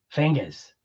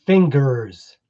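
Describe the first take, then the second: First: "Fingers" said as fing-guhz in a Boston accent, no R at the end; a soft, low Boston "Fingers" with no R. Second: "Fingers" said with a full American R, fing-gerz, through a laugh; "Fingers" with a clear R, not the Boston way. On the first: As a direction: drop the R in "Fingers", Boston style. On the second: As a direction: laugh while saying "Fingers" with the R sounded. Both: Shown as a demonstration. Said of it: "we don't do the E Rs".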